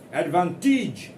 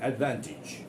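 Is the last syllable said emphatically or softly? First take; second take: emphatically; softly. First: The last syllable is full and emphatic, like 'age'. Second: The last syllable is soft and reduced. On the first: The speaker calls it wrong. "do not be emphatic there. Don't say that" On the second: The speaker calls it right. "Very softly. It is not age. It is each"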